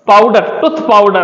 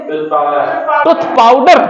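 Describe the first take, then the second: First: Said in the usual way. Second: टूथ पाउडर said very slowly, पाउडर drawn out with a clear ड; careful pronunciation. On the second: Shown as a demonstration. Teacher to pupils, slow careful पाउडर. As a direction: spell out टूथ पाउडर slowly so पाउडर is not heard as पावर. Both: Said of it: "पावर नहीं, पाउडर".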